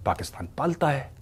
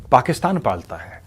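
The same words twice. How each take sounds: First: पालता leaned on with a falling tune, softer overall; stress on पालता. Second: पाकिस्तान punched at full level, falling after; stress on पाकिस्तान. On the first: Commentator stressing what Pakistan does: weight on पालता. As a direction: hit पालता, let पाकिस्तान pass. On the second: Commentator naming who is to blame: weight on पाकिस्तान. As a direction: hit पाकिस्तान hard, the rest flat. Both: Shown as a demonstration.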